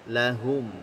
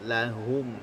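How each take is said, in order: No difference in how they are said.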